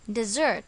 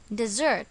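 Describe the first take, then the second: First: The stress is on the second syllable. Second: The stress is on the second syllable.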